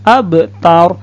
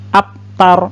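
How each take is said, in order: First: The b sound bounces with a release. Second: The b sound stops flat without release. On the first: The speaker calls it right. "bunyinya itu harus dipantulkan" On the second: The speaker calls it wrong. "itu salah"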